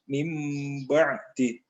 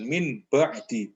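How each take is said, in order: First: The sound before the b is an m. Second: The sound before the b is an n. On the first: The speaker calls it right. "mim itu dibaca m" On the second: The speaker calls it wrong. "Bukan min ba'di, itu salah"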